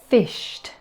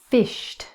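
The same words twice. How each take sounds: No difference in how they are said.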